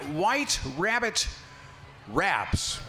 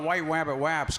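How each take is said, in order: First: The r sounds are pronounced clearly as r. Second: The r sounds come out sounding like w.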